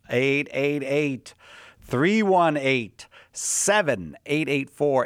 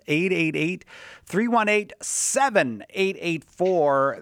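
First: The number is said slowly. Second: The number is said quickly.

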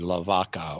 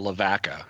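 First: It is said with a Spanish pronunciation. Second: It is said with an English, local pronunciation. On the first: This is the original Spanish way, meaning the cow. "the Spanish way" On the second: This is how locals in Arkansas say it. "pronounced in Arkansas"

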